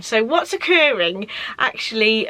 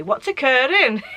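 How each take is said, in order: First: Said in the usual way. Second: Put-on light Welsh accent, rising then falling. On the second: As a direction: quote it in a sing-song Welsh accent. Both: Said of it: "in, like, a Welsh accent".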